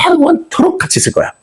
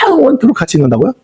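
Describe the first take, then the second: First: 영원토록 stretched long and high, then falling. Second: 영원토록 stretched long and high, ending in a rising question. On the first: Shown as a demonstration. Preacher confronting listeners about sharing heaven, 영원토록 stretched high and emphatic. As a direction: draw out the first sound of 영원토록, pitched high, and finish as a firm statement. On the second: Acted. Acted listener balking at sharing heaven, 영원토록 stretched into an incredulous question.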